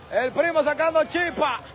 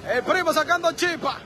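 Both takes have the same delivery.

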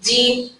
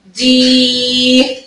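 First: دي said briefly, ee not held; short vowel. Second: دي with a long, steady ee; drawn-out دييي; long yaa vowel. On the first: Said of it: "الحركه القصيره تاني". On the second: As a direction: stretch out the vowel of دي on one note. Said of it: "لو مد بالياء". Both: Shown as a demonstration.

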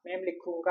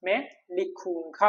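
First: Said in the usual way. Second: Slow, careful demo of മേ ലിഖൂങ്ക with each syllable drawn out; slow model phrase. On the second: Shown as a demonstration. Teacher showing students the Hindi for I will write, slow. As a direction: draw out മേ ലിഖൂങ്ക for the class. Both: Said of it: "അപ്പൊ എങ്ങനെയായിരിക്കും ഹിന്ദി പറയാം?".

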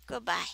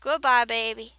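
First: Said in the usual way. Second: Teasing goodbye. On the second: Real, not acted. Waves the creeper off.

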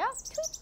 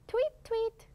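First: High rising chirpy tweet; bird tweet imitation. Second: High chirpy tweet, tweet; bird tweet imitation. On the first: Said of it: "이런 소리를 내기도". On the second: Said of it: "some go". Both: Shown as a demonstration.

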